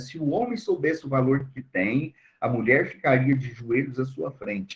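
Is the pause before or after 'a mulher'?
before. The pause comes before 'a mulher'.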